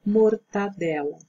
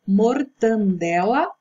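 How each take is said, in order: First: Mortadela with no n, mor-ta-DE-la; correct pronunciation. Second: Mortandela with an extra n before the d; wrong pronunciation. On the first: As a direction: say mortadela cleanly, ta not tan. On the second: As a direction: say mortandela, the common mistake. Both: Shown as a demonstration. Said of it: "A forma correta é mortadela".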